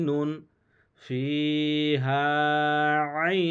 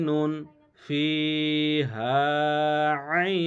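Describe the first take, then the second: No difference in how they are said.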